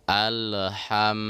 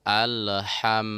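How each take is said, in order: Both takes have the same delivery.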